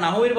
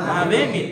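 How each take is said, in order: First: "নাহু মির" with an u ending on nahu; wrong pronunciation. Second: "নাহাবে মির" as na-ha-be mir; correct pronunciation. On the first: Teacher showing what is not said, "নাহু মির" with u. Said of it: "এটা তো কি বলা হয় না". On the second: Teacher answering own question on the title, "নাহাবে মির" as nahabe. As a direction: say "নাহাবে মির" with a second a, not nahu. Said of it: "কি?". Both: Shown as a demonstration.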